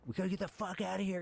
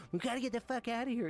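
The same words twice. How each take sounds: First: Retold high panicked burst, fast; mock-frantic high plea to get out; panicked yell. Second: Much higher mock-frantic squeal, fast; exaggerated high frantic yell, redone for laughs; hammed-up panic. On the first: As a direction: blurt it out like you're losing it under fire. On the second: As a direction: overplay the panic while laughing. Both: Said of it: "I'm, like, losing it".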